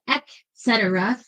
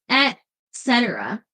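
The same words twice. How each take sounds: First: It begins with a hard K sound. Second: It begins with a T sound. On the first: The speaker calls it wrong. "with a big hard K sound" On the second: The speaker calls it right. "She said with a T"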